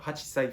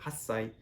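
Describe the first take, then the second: First: The number keeps its full two-syllable form. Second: The number shortens into a doubled s sound. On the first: The speaker calls it wrong. "you don't say um, uh, hachisai for eight" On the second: The speaker calls it right. "you say hassai"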